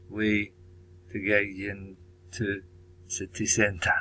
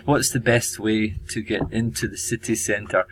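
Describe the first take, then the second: First: Slow, careful English in a light Chinese accent. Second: Said in the usual way. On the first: Shown as a demonstration. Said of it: "sorry about my bad, uh, Chinese accent". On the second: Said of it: "And simplified is".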